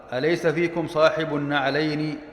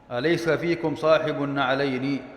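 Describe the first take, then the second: No difference in how they are said.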